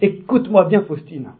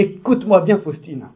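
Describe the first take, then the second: First: It is said with an American accent. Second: It is said with an American accent.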